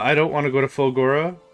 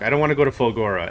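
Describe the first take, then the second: First: It ends with a rise, like a question. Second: It ends with a fall, like a statement.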